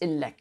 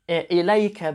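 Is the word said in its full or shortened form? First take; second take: shortened; full. First: The word is shortened to two syllables. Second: The word is said in full with three syllables. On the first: This is the everyday spoken dialect form. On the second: This is the formal standard form.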